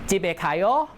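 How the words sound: The voice rises at the end. It asks a question. "Are you going home? Like that"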